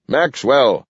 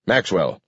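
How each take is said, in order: First: Maxwell called high and louder; shouting. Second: Said in the usual way. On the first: A narrator's reading. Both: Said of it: "he shouted".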